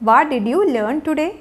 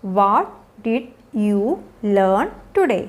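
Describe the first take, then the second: First: Said in the usual way. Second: Very slow, low, every word isolated. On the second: Shown as a demonstration. Teacher modelling an after-school question for learners, word by word.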